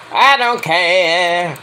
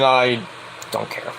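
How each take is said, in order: First: Long drawn-out, mock-singsong dismissal; exaggerated indifference. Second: Low, soft throwaway; quiet indifference. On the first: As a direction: stretch every word to show how little it matters. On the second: Real, not acted. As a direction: drop it under your breath, uninterested. First take, dismissive aside.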